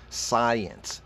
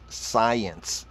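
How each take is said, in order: The two takes are said the same way.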